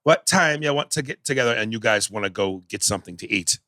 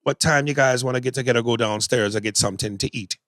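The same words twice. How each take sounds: First: Mocking a Jamaican accent that starts off and then falls off; Denzel's bad Jamaican accent. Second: A casual, lightly voiced Jamaican accent done as a fair attempt; own Jamaican accent. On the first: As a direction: imitate a Jamaican accent that keeps slipping. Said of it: "here was Denzel". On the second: Shown as a demonstration. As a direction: show how a Jamaican accent should run, steady throughout. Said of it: "I'm not the best Jamaican accent".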